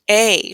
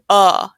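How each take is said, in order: First: The vowel is full, like the letter name. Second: The vowel is a short, reduced uh sound. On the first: "this is also a letter and a vowel. This is A" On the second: "Sometimes you might say uh. It depends on where this word is in the sentence"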